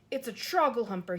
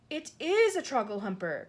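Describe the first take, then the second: First: Louder alarmed call; shout. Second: Louder with stress on "is"; exasperated insistence. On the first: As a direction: raise the alarm at the bad dream. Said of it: "he shouted". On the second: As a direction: correct her impatiently. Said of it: "cried the exasperated B F G". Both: Acted.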